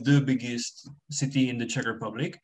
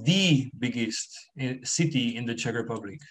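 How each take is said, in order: First: The word 'the' is reduced and unstressed. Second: The word 'the' is full and stressed. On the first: It is a neutral statement of fact. "So I would just say the" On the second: It contradicts what someone else claimed. "I'm trying to stress it"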